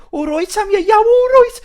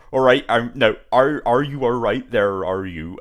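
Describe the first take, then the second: First: Much higher, louder Yam Yam voice. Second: Slow rural Somerset drawl, lightly imitated; a hint of a West Country farmer; Somerset farmer accent. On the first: Retold or imitated. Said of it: "Yam Yams". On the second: Imitating a Somerset farmer from the game, slow rural accent. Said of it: "sounds like a farmer".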